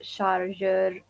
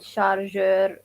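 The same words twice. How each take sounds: First: The word has a French-style pronunciation. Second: The same.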